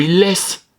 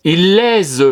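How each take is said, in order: First: Il laisse with a hissed double S, as laisse; la bonne prononciation, bien nette; correct reading. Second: The teacher voices the pupil's spelling error; misread wrong way. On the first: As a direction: show the right word to the class. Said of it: "Ah, non". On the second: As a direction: read out the child's mistake. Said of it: "Ah, non, on veut il laisse". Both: Shown as a demonstration.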